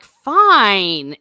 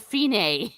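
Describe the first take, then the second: First: "fine" drawn out loud, long i; "fine" rhyming with dine. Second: "fine" with ee, then an ay ending; "fine" as fee-NAY. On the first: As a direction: stretch "fine" as one loud syllable. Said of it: "like fine, instead of fine". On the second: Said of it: "instead of fine". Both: Shown as a demonstration.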